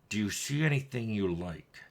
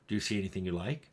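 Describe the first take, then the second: First: It is said in an angry, hostile tone. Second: It is said in a flat, neutral tone. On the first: The character hates the listener. "an N P C who hates you, is very angry at you" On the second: The character has no feelings toward the listener. "the neutral"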